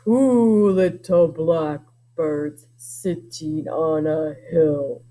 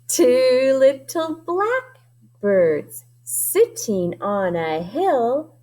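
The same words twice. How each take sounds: First: It is said in a deep, low voice. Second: It is said in a normal, higher voice.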